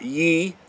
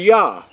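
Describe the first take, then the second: First: The syllable is said with an 'e' vowel. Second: The syllable is said with an 'ah' vowel. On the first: The speaker calls it wrong. "They're not Ye" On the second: The speaker calls it right. "they're Yah"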